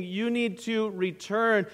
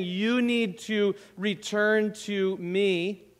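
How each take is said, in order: First: NEED pressed, falling tune; stress on need. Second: YOU leaned on, slow; stress on you. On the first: Preacher voicing the Lord's call, stress on "need". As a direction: press "need" in "You need to return", falling at the end. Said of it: "I wonder if we hear the Lord saying". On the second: Preacher voicing the Lord's call, stress on "You". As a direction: put the weight on "You" in "You need to return to me". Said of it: "I wonder if some of us hear the Lord saying". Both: Shown as a demonstration.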